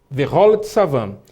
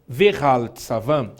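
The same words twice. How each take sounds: First: "Vehol" read slowly with an open O in the second syllable. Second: "Vehal" read slowly with an A sound in the second syllable. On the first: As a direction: say Ve-HOL, O in place of A. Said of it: "Eu vou ler com som de O". ("Vehol" com som de O aberto, devagar) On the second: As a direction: say Ve-HAL, open A, lower and slower. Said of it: "Eu não posso ler Vehal". ("Vehal" com som de A, devagar) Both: Shown as a demonstration.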